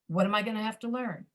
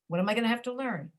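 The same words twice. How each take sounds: First: The vowels are reduced to a schwa. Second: The same.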